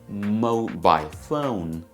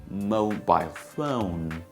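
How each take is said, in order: First: It is said in a British BBC accent. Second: It is said in a British BBC accent.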